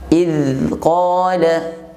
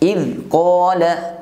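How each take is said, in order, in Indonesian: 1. Bunyi z mengalir terus tanpa berhenti. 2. Bunyi z terputus secara tiba-tiba. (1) "Seharusnya suara tidak terputus" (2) "Contoh pengucapan yang keliru"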